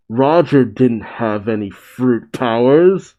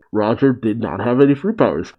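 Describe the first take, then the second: First: Rising, incredulous read; questioning surprise. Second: Said in the usual way. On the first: Acted. Reader reacting to the reveal about Roger, questioning. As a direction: lift the end into a question. Quote, then restated by the reader.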